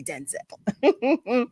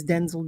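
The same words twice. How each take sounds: First: DENZEL as den-ZELL, stress on the last syllable; second-syllable stress. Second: DENZEL as DEN-zul, stress on the first syllable. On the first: Shown as a demonstration. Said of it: "We all say Denzel". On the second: Retold or imitated. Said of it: "he says Denzel".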